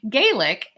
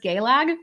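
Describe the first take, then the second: First: The word ends with an 'ik' sound. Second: The word ends with an 'ag' sound. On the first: This is the common outside pronunciation. The speaker calls it wrong. "doesn't say Gaelic" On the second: This is how an Irish speaker says it. The speaker calls it right. "Gaelic is pronounced as Gaelag"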